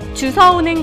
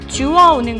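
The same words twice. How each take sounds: First: The verb is said with an 's' sound. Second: The verb is said with a 'w' sound. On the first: The speaker calls it wrong. "잘못 얘기하고 있진 않으신가요?" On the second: The speaker calls it right. "주워오는 것이 올바른 표현입니다"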